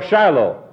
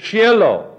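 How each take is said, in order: First: Said in the usual way. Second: Shiloh with no long I, roughly SHEE-eh-loh; Shiloh as SHEE-eh-loh, not SHY-loh; Hebrew pronunciation. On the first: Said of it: "there's no I in it". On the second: Shown as a demonstration. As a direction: say Shiloh the Hebrew way, first vowel as in "she". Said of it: "The Hebrew word is".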